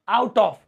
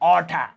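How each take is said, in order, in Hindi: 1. 'Out of' को दो पूरे शब्दों की तरह बोला जाता है। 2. 'Out of' को मिलाकर 'outta' बोला जाता है।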